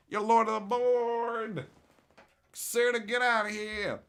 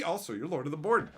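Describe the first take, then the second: First: Slow, louder, higher proclamation of Lord of the Board; booming title announcement; grand announcer. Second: Said in the usual way. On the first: Shown as a demonstration. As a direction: announce it like a herald. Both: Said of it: "repeated grandly".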